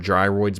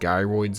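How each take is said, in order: First: The first syllable sounds like the start of 'gyrate'. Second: The first syllable does not sound like 'gyrate'. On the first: The speaker calls it right. "because they gyrate" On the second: The speaker calls it wrong. "it's how I pronounced them growing up"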